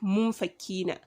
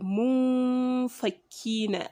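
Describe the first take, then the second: First: The n is passed over quickly. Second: The n is held with a nasal hum. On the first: The speaker calls it wrong. "and not munfakina" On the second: The speaker calls it right. "That is the waiting there before you move forward, and that is why we say munfakina"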